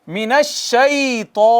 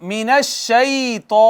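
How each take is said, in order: No difference in how they are said.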